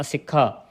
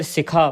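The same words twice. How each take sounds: First: ਸਿੱਖਾ with a tight double kh, "sik-kha"; ਸਿੱਖਾ with the adhak firmly sounded; doubled consonant. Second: ਸਿੱਖਾ softened to "sikha", single kh; ਸਿੱਖਾ with a light undoubled kh; loose pronunciation. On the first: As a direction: hold the k in ਸਿੱਖਾ before releasing it. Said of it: "ਅਦਕ ਦੇ ਨਾਲ ਉਚਾਰਨ ਕਰਨਾ". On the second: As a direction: say ਸਿੱਖਾ loosely without doubling. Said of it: "ਪੋਲਾ ਵੀ ਇਹਨੂੰ ਪੜ੍ਹ ਸਕਦੇ ਹਾਂ". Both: Shown as a demonstration.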